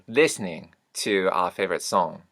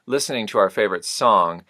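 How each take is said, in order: First: Syllables and consonant clusters are simplified. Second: All syllables and consonant clusters are fully pronounced.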